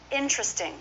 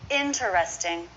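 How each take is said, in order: First: It is said with three syllables. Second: It is said with four syllables. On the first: "they drop the vowel between T and R" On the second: "Four syllables"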